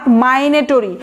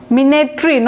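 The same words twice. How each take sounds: First: মাইনেটরি slowly, as "my-ne-to-ree"; wrong pronunciation. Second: মিনেটরি opening on "mi", as "mi-ne-tree"; correct pronunciation. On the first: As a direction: stretch out the mistaken "my" opening of মাইনেটরি. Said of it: "এটা খুবই ভুল উচ্চারণ". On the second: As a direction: say মিনেটরি with an i sound first. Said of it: "আয়ের মতো উচ্চারণ হবে মি". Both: Shown as a demonstration.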